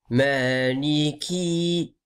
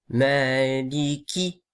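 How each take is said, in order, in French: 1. La voyelle finale est longue. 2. La voyelle finale est courte. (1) "c'est pas Maliki" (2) "la voyelle à la fin de Maliki, elle est pas longue"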